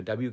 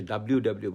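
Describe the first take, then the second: First: "ডাব্লিউ" without the L, dab-yu; American W pronunciation. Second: "ডাব্লিউ" with the L sounded, dab-liu; Bangladeshi W pronunciation. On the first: Teacher explaining the habit from living abroad, "ডাব্লিউ" as American dab-yu. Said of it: "ডাব্লিউটা হচ্ছে আসলে আমেরিকার উচ্চারণ". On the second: Teacher showing how Bangladesh names the letter, "ডাব্লিউ" as dab-liu. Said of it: "আমরা তো বাংলাদেশে ডাব্লিউ ডাব্লিউ বলি". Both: Shown as a demonstration.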